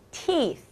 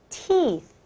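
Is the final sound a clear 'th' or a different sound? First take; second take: clear th; clear th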